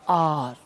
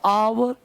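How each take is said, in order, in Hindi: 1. यह शब्द एक छोटे अक्षर में बोला जाता है। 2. यह शब्द दो अक्षरों में तोड़ा जाता है। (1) "इसका रियल से पता है क्या है?" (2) "बहुत तोड़ोगे तो"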